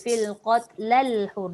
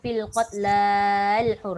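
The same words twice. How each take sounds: First: The vowel runs straight into the L, short. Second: The vowel is drawn out before the L. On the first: The speaker calls it right. "Dia terus je" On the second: The speaker calls it wrong. "Dia jangan"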